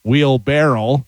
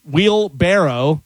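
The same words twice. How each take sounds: First: "wheelbarrow" slowly as wheel-barrel; slow "wheelbarrow" rhyming with barrel; mistaken word. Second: "wheelbarrow" slowly, ending in -oh; slow "wheelbarrow" with an open final vowel; correct word. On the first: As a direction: end "wheelbarrow" on an L. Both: Shown as a demonstration. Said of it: "instead of wheelbarrow".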